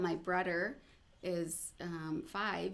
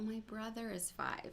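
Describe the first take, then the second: First: It hesitates with a filler before the last word. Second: It flows smoothly without any hesitation. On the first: The speaker struggles with the sound. The speaker calls it wrong. "instead of saying" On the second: The speaker has mastered the sound. The speaker calls it right. "you would say"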